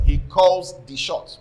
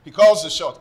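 First: "He calls the shots" slowed right down, each word weighted; emphatic repeat. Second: Said in the usual way. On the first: Real, not acted.

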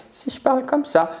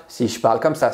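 First: Much higher, odd voice for a demo; squeaky demo of a different tone; high put-on voice. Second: Said in the usual way. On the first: Shown as a demonstration. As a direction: pitch it way up to show tone. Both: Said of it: "c'est le ton avec lequel je vais parler".

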